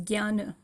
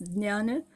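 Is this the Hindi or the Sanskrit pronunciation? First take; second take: Hindi; Sanskrit. First: It is said with the modern Hindi pronunciation. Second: It is said with the Sanskrit pronunciation. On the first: "Hindi, our modern way of pronouncing the same word is jnana" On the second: "In Sanskrit, it's jnana"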